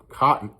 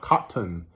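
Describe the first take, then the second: First: The T sounds are dropped. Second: The T sounds are clearly pronounced. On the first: "we don't pronounce the T's. That's how I say cotton" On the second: "not cotton"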